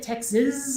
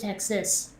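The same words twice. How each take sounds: First: The final sound is buzzed like a Z. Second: The final sound is hissed like an S. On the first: The speaker is a native of the state. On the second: The speaker is not a native of the state.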